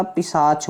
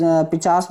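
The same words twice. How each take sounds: First: पिशाच said with "sh" in the middle and "ch" at the end; पिशाच pronounced the right way; correct pronunciation. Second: पिचास said with "ch" in the middle and "s" at the end; पिचास as a misspoken form; wrong pronunciation. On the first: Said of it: "पिशाच होता है". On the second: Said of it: "पिचास नहीं होता". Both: Shown as a demonstration.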